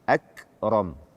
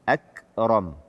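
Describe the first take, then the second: Both takes have the same delivery.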